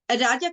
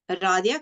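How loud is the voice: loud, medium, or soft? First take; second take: loud; medium. First: The name is said very loudly, almost shouted. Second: The name is said a little more loudly. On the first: The speaker is angry and scolding. "I am raising my voice" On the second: The request is being repeated more firmly. "and then it gets a little bit louder"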